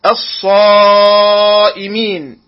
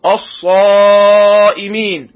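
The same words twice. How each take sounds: First: الصائمين opening on a thin 'a', long drawn saad vowel; light hamza. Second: الصائمين opening on a dark, backed 'o'-like hamza, long madd; heavy hamza. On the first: Tajweed teacher models الصائمين properly, light opening hamza. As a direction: start الصائمين with a light, fronted 'a', stretch the madd. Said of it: "تفخيم الهمزة". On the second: Tajweed teacher shows the mistake, الصائمين with heavy hamza. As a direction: thicken the first vowel of الصائمين to 'aw', then stretch. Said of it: "وهذا خطأ". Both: Shown as a demonstration.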